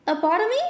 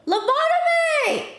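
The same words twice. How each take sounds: First: Said in the usual way. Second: High, loud eureka shout; excited shout. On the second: Real, not acted. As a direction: yell it like you've just found it. Finally finds the word.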